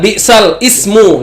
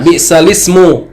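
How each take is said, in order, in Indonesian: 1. Hentian glotal memisahkan bi'sal dari ismu. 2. Bunyi l langsung menyambung ke ismu.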